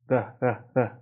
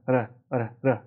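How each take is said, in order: Both takes have the same delivery.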